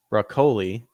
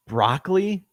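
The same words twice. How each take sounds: First: "Broccoli" as bruh-KOH-lee; alternative pronunciation. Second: "Broccoli" as BROCK-lee, like the vegetable, pitched up; vegetable pronunciation. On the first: Reader hopes the surname differs from the vegetable, "Broccoli" as bruh-KOH-lee. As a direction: say "Broccoli" with a long OH in the middle syllable. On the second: Reader doubts that's really her name, "Broccoli" as BROCK-lee. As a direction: question "Broccoli" in two syllables, BROCK-lee, higher. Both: Shown as a demonstration. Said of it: "Please tell me it's pronounced broccoli".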